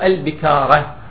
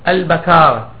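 First: The b is followed by an i vowel. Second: The b is followed by an a vowel. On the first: The speaker calls it wrong. "وكسر الباء" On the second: The speaker calls it right. "والصواب ... بفتح الباء"

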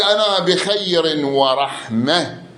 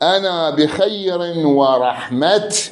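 First: The last word ends in an h sound. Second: The last word ends in a t sound. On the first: "إذا تقف تقول أنا بخير ورحمة. تطلع هاء" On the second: "قسم من عندهم شو يقولون؟"

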